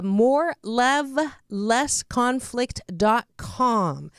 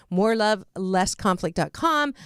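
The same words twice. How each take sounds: First: Slow, spaced-out web address; slow announcement. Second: Said in the usual way. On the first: Real, not acted. Host giving listeners the guest's website, slow and deliberate. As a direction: spell it out slowly for listeners, word by word.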